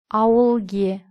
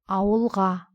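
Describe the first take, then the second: First: The suffix is said with the vowel e. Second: The suffix is said with the vowel a. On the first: The speaker calls it wrong. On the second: The speaker calls it right.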